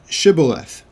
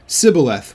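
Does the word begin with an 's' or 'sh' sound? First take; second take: sh; s. First: The word begins with a 'sh' sound. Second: The word begins with an 's' sound. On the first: The speaker calls it right. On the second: The speaker calls it wrong.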